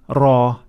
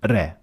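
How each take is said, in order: First: The r is heavy, said with a full mouth. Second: The r is light, said with an empty mouth. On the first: "full mouth ra" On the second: "empty mouth re"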